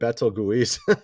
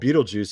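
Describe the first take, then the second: First: The name does not sound like 'Beetlejuice'. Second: The name sounds like 'Beetlejuice'. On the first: The speaker calls it wrong. "I was calling it Betelgeuse" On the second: The speaker calls it right. "apparently that's how you pronounce the star"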